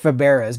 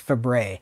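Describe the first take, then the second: First: The name is read out as it is spelled. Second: The name is said as the short form 'Fabre'. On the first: The speaker calls it wrong. "It looks like Faberas" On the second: The speaker calls it right. "That's how you pronounce it"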